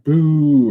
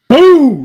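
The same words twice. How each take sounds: First: It is said quietly. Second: It is said loudly.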